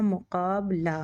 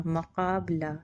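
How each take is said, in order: First: मुकाबला with u after the m; teacher models मुकाबला with a rounded u; correct reading with mu. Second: मकाबला said with ma, the wrong a vowel; teacher demonstrates the wrong मकाबला with a; wrong reading ma. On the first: Teacher to students, modelling the correct u vowel. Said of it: "मीम है वो पेश के साथ में पढ़ा जाएगा". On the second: Teacher to students, showing the wrong ma vowel. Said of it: "जो कि गलत है". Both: Shown as a demonstration.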